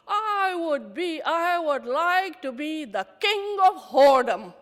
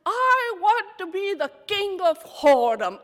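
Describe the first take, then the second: First: Defiant joke. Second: Much higher and louder, every word pressed; emphatic repeat. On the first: Answering the anchor's magic wand, loud and proud. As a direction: announce it grandly through tears. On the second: Repeating the wish to the anchor, loud and high. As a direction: belt it out to make her hear. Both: Retold or imitated.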